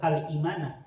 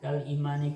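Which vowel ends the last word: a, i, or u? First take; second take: a; i. First: The last word ends with an a sound. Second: The last word ends with an i sound. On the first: The speaker calls it wrong. "enggak kal imana" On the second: The speaker calls it right. "makanya dibaca imani"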